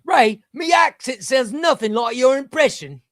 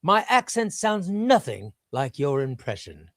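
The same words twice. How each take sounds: First: High, loud mock Cockney; put-on Cockney, pitched way up; Cockney accent. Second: Put-on slow, over-classy English accent; deliberate, too-classy English voice; classy British impression. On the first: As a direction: read it out as a hammed-up Cockney. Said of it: "maybe he's Cockney". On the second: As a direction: read it out in a measured British put-on. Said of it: "maybe I made D Ps too classy".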